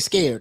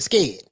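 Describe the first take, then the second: First: It is said in a standard accent. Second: It is said in a country Southern accent.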